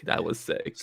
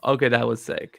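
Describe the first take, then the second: First: "That was sick" said again under the breath, nearly voiceless; a quiet, awed afterthought; breathy hushed repeat. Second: Said in the usual way. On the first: Real, not acted. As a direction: echo the words softly to yourself. Repeats the reaction to herself.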